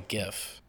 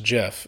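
First: The word begins with a hard g sound. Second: The word begins with a soft j sound. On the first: The speaker calls it right. "I call it a GIF" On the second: The speaker calls it wrong. "no, that's peanut butter"

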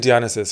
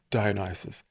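First: The name is said the non-British way. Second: The name is said the British way. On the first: It feels more elegant. "I say Dionysus because it feels more elegant to me" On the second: This is how British speakers say it. "I think the Brits say Dionysus"

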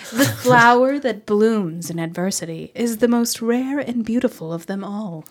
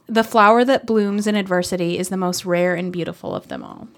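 First: It is read in a wise, solemn voice. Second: It is read in a plain, ordinary voice.

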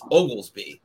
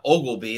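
First: The name is said with an s sound. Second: The name is said without an s sound. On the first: The speaker calls it right. "There's an S in there" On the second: The speaker calls it wrong. "a lot of people miss the S and call him Ogilby"

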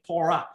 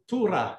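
First: The first vowel sounds like 'oh'. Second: The first vowel sounds like 'oo'. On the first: This is how it is pronounced today. "this is the modern transliteration or the modern way of pronouncing it" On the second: This is how it was pronounced in ancient times. "the Vav is pronounced with a U, not an O. So it is actually Torah"

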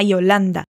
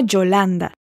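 First: The Y sounds like an ee. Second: The Y sounds like a j. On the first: "Agora, com o som de I" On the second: "a primeira delas, que foi o som de J"

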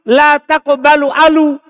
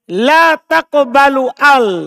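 First: The last word ends with an added u vowel. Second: The last word ends without a vowel. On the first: The speaker calls it wrong. "Sebenarnya kan saya baca alu" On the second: The speaker calls it right. "Saya baca al"

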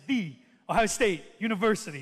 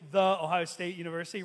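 First: The word 'the' is said with strong stress. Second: The word 'the' is said lightly, unstressed. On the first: The speaker calls it right. "We say" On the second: The speaker calls it wrong. "we don't say"

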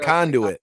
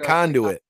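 First: The name is said with three syllables. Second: The same.

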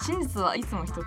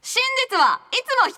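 First: It is said in the speaker's normal voice. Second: It is said imitating Conan's voice.

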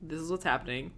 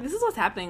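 First: The voice is level and flat. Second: The voice is lively and varied. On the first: The character shows no emotion. "but here it's so, like, flat" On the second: The character confidently gives orders. "her exact, like, inflection and intonation"

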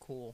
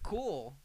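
First: It is said flatly. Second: It is said with enthusiasm.

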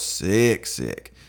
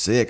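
First: The word is said with strong, drawn-out emphasis. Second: The word is said plainly, without extra emphasis. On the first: Very seriously ill. "just with two different emphasis" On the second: Ordinarily ill. "I wasn't just sick"

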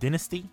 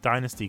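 First: It is said with the British pronunciation. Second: It is said with the American pronunciation. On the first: "in the UK we pronounce it Dynasty" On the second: "I say Dynasty because all of the promotional material were from the US"

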